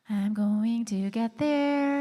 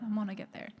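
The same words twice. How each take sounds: First: Spelling out going to slowly and firmly; every word of I'm going to get there pressed, unhurried; slow, emphatic promise. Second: Said in the usual way. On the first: Shown as a demonstration. Host reassuring viewers she will change the band name, slow and firm.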